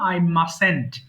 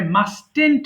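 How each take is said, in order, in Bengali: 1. মাঝখানের t নীরব থাকে। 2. মাঝখানের t উচ্চারিত হয়। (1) "এই টিটা উচ্চারণ করতে হবে না, সিম্পলি বলবা আই মাসেন্ট" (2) "অনেকে ভুল করে আই মাস্টেন্ট বলে"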